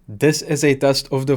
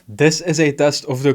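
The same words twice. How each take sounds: First: The voice sounds warmer and fuller. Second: The voice sounds thinner and less full. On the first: The speaker calls it right. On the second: The speaker calls it wrong.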